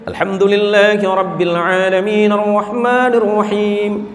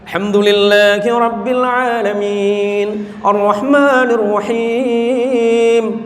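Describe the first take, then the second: First: It is recited at a medium pace. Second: It is recited slowly and measuredly.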